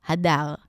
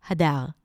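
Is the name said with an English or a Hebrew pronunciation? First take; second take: Hebrew; Hebrew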